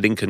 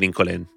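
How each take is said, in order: First: It is said with an American English pronunciation. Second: It is said with an Israeli Hebrew pronunciation. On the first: "if you're American or English" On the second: "they won't know what you're doing unless you say Lincoln"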